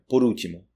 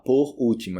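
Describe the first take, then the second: First: The two words are linked together. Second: The two words are said separately. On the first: The speaker calls it right. "é por último" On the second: The speaker calls it wrong. "Ninguém vai falar por último"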